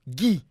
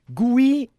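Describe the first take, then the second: First: A plain 'i' follows the g with no glide. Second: An 'ou' glide comes before the 'i' after g. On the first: The speaker calls it right. "Au lieu du « i »" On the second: The speaker calls it wrong. "il prononce un O comme un oui"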